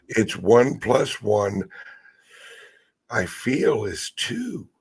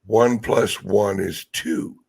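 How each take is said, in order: First: Mock hedging. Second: Said in the usual way. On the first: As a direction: slip in a timid I feel and trail up. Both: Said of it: "Nobody wants to say".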